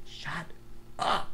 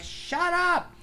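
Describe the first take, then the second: First: Quiet muffled shut up; regulator out of mouth. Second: Very high mock snap; squeaky annoyed shut up; exasperated shut up. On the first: Retold or imitated. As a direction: say it without the regulator, softly. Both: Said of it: "I'm like".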